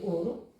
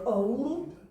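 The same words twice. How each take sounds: First: The first vowel is one steady vowel. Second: The first vowel is a gliding diphthong. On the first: This is the newer form that replaced it. "para se passar a dizer ouro" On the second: This is the older form, no longer used. "deixou de se dizer ouro"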